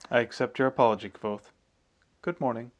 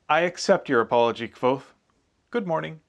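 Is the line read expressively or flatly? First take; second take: flatly; expressively. First: The line is read with flat, even pitch. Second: The line is read with lively, varied pitch.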